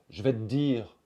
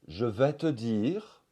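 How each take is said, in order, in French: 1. La voyelle tombe et un D allongé reste. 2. La voyelle de 'te' est prononcée entièrement. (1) "le E disparaît, ... un D un petit peu allongé" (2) "au lieu de dire"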